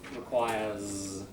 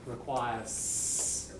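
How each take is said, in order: First: The final sound is a buzzing z. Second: The final sound is a hissing s. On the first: The speaker calls it right. "If you want the native, like, you know, what people are saying, requires. Remember, most S's, most are z" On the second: The speaker calls it wrong. "I'm hearing a requires"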